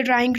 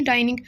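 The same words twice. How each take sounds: First: ड्राइंग said as drawing, with the r; misread word. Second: डाइनिंग said as dining, with no r; corrected word. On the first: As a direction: reads ड्राइंग with an r, as in drawing room. (ड्राइंग को ग़लती से 'ड्रा' की तरह बोलना) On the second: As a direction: corrects it to डाइनिंग, dai-ning. (डाइनिंग को सुधारकर बिना 'र' के बोलना) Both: Shown as a demonstration. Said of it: "अच्छा, ड्राइंग नहीं".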